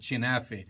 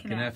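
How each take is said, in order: First: The word begins with a ch sound. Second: The word begins with a k sound. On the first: This is how people from certain villages say it. "For some people, they pronounce it chinafe" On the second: This is how people from Jerusalem say it. "I'm a Jerusalemite, so we call it kinafe"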